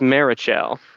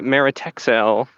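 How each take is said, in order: First: The middle is said with a 'ch' sound. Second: The middle is said with a 't' and 'x' sound.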